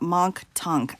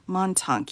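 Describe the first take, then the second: First: It is said with a K sound after Mon. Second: It is said with no K sound after Mon. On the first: The speaker calls it wrong. "So it's not Monk Tunk" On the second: The speaker calls it right. "there's no K sound at Monk"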